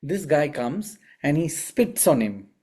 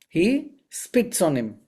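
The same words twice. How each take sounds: First: Said in the usual way. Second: "He spits on him" said slower, stress on "he"; slow emphatic repeat. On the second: Shown as a demonstration. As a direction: hammer home "He spits on him" slowly, leaning on "he".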